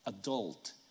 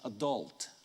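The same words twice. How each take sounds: Both takes have the same delivery.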